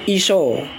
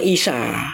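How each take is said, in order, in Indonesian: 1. Nama itu diakhiri dengan vokal 'o'. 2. Nama itu diakhiri dengan vokal 'a'. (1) "Ini dialek barat" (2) "Dialek timur Isa"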